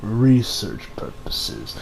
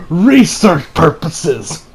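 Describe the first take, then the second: First: "research purposes" very slow, low and soft; doubting. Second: "research purposes" drawn out word by word; dubious claim. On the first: Acted. Reviewer doubting the friend's excuse, "research purposes" slow and low. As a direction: drag out "research purposes" quietly, full of doubt. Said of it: "I doubt you're really doing this". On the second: Retold or imitated. Reviewer quoting a friend's flimsy excuse, "research purposes" drawn out. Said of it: "he claims that the reason".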